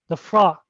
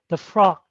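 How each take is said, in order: Both takes have the same delivery.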